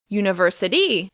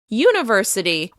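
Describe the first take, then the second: First: The stress is on the last syllable. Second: The stress is on the first syllable. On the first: "or to the end of the word" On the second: "If you shift the stress to the beginning of the word"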